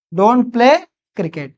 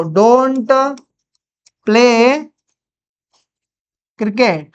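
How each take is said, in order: First: Said in the usual way. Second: Long pause after each word; word-by-word dictation. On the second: Shown as a demonstration. Teacher building a negative sentence for students, word-by-word dictation. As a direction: stretch and separate every word.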